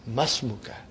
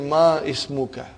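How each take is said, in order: First: The opening vowel of ismuka is dropped. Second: The opening vowel of ismuka is fully pronounced. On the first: The speaker calls it right. "You should say" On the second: The speaker calls it wrong. "It will be incorrect to say"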